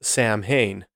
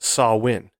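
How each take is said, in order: First: It is said the way the English spelling suggests. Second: It is said differently from the English spelling. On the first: The speaker calls it wrong. "you would think it'd be pronounced Samhain" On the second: The speaker calls it right. "But it is pronounced Samhain"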